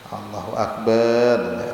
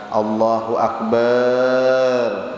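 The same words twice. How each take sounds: First: The vowels are kept short. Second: The vowels are drawn out long. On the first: The speaker calls it right. "ada boleh" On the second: The speaker calls it wrong. "itu salah"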